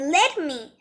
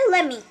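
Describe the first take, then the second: First: Both words are said fully and separately. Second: The words are run together as one word.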